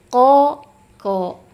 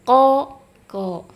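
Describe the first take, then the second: Both takes have the same delivery.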